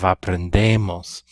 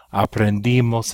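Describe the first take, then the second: First: "aprendemos" said a-pren-DEH-mos; E in the ending. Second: "Aprendimos" said a-pren-DEE-mos; I in the ending. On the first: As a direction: stress a clear eh sound in "aprendemos". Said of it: "instead of aprendemos". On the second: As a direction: stress a clear ee sound in "Aprendimos". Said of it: "E of the E R verbs becomes an I". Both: Shown as a demonstration.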